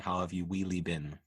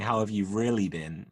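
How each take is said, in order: First: Really is said sounding like wheelie. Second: Really is said with an ordinary r sound. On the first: "I'm saying wheelie" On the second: "instead of saying"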